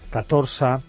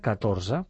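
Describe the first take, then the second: First: The z sound is voiceless. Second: The z sound is voiced. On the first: The speaker calls it wrong. "No en fa cap de sonora" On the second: The speaker calls it right. "o la mateixa Z del 14"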